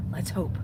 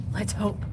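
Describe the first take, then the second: No difference in how they are said.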